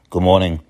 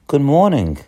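First: The greeting sounds flat and unfriendly. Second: The greeting sounds warm and friendly.

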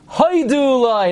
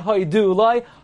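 First: Hoidu is stressed on its first syllable. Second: Hoidu is stressed on its last syllable. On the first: The speaker calls it right. "the word before jumps back and you emphasize the first syllable. So it becomes" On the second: The speaker calls it wrong.

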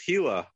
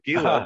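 First: It is said like the lizard name, Hila. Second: It starts with a hard g sound. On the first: The speaker calls it wrong. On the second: The speaker calls it right.

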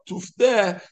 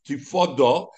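First: The word is read with a reduced shva vowel. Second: The word is read with a full 'a' vowel. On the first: Someone else must do the redeeming. "with a shva" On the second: The firstborn must redeem himself. "with a kometz"

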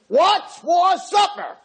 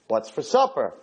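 First: It is screamed very loudly. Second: It is asked at a normal, quiet volume.

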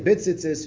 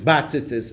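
First: The first syllable has a short reduced vowel. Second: The first syllable has a clear 'a' vowel. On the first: "b'shva tachas abeis" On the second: "they all say to say it with a patach"

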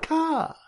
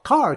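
First: It is said in a Boston accent without r. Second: It is said with a plain r-pronouncing accent.

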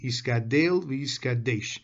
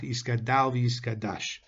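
First: The final syllables have an 'e' vowel. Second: The final syllables have an 'a' vowel. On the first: The speaker calls it right. "the proper pronunciation of Kaddish is with a tsere under the Dalet" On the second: The speaker calls it wrong. "and not with a patach"

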